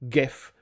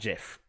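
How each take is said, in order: First: It begins with a hard G sound. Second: It begins with a soft G sound. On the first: The speaker calls it right. "it should be pronounced GIF" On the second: The speaker calls it wrong. "not GIF"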